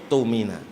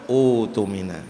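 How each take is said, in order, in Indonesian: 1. Kata ini langsung dimulai dengan bunyi t. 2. Kata ini dimulai dengan vokal u yang ditambahkan. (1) "Alladzi tumina" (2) "Kalau menjadi permulaan utumina"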